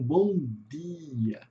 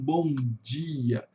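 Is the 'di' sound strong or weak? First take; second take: weak; strong. First: The di sound is soft and weak. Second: The di sound is strong and marked.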